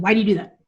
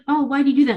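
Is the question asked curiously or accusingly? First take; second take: accusingly; curiously. First: It sounds judgmental and accusing. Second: It sounds friendly and curious.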